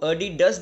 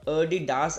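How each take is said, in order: First: It is said the American way. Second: It is said the German way. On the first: "ये American में बोला जाता है" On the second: "Germany की language में"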